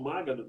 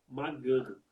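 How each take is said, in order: First: The stress is on the first syllable. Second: The stress is on the second syllable. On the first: The speaker calls it wrong. "Se for pró-paroxítona, como você falou" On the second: The speaker calls it right. "Paroxítona"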